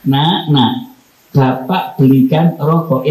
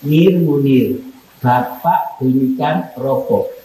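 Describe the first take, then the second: First: Tender call to son. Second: Curt call by name. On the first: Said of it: "Sama begini". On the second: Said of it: "Sama rasakan enak mana?". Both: Shown as a demonstration.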